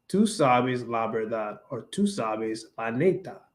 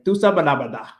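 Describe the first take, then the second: First: Slow "tú sabes la verdad" with every s sounded; careful neutral "tú sabes", s sounded; neutral Spanish. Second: "tú sabes la verdad" run together, clipped "sabe la verdá"; quick Dominican "tú sabes la verdad"; Dominican accent. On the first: Showing the neutral way: slow, careful "tú sabes". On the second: Showing a friend her Dominican way: clipped "tú sabes la verdad". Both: Shown as a demonstration. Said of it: "Instead of saying".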